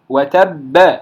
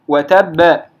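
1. تأتي بعد الباء الأخيرة حركة. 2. تأتي بعد الباء الأخيرة حركة.

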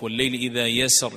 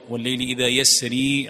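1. لا تنتهي الكلمة الأخيرة بياء ممدودة طويلة. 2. تنتهي الكلمة الأخيرة بياء ممدودة طويلة. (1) "بإثبات الياء في الوصل وحذفها عند الوقف" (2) "بإثبات الياء وصلا ووقفا"

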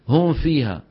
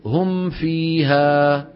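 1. الميم تذوب في صوت الفاء الذي بعدها. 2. الشفتان تُطبقان على الميم ثم تنزلقان إلى الفاء. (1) "وانا بسمعها كثير من بعض اخواننا" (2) "تطبق على ميم وبلطف، بلطف تنتقل الى فاء"

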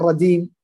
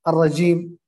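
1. الحرف الأوسط صوت d. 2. الحرف الأوسط صوت j.

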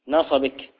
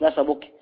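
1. يأتي بعد صوت الباء حركة الكسرة. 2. لا يأتي بعد صوت الباء حركة الكسرة. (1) "على قدر نصبك بكسر الباء" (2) "مش"

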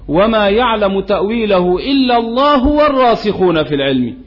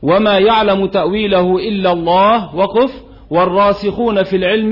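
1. تُقرأ الجملة متصلة دون وقف. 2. يوجد وقف بعد لفظ الجلالة. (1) "أما قراءة الوصل" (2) "قراءة الوقف"

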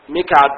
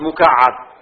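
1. تبدأ بـ mi ولا يوجد فيها حرف مشدد. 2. تبدأ بـ mu وفيها حرف مشدد. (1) "بكسر الميم وسكون الكاف" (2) "بضم الميم وفتح الكاف وتشديد العين"

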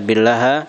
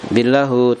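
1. Kata itu diakhiri dengan vokal a. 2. Kata itu diakhiri dengan vokal u. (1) "Jadi tidak dibaca billaha" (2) "tidak dibaca apa? Billahu"

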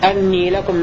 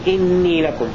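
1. تبدأ الكلمة الأولى بحركة 'a'. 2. تبدأ الكلمة الأولى بحركة 'i'. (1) "بفتح الهمزة" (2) "بكسر الهمزة"

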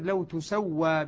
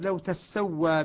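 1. حرف السين في الفعل مخفف. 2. حرف السين في الفعل مشدد. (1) "بضم التاء على البناء للمجهول" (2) "نافع وابن عامر يشددان السين"

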